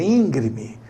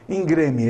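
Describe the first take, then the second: First: The stress falls on the first syllable. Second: The stress falls on the second syllable. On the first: The speaker calls it right. "é íngreme" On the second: The speaker calls it wrong. "Não é íngreme"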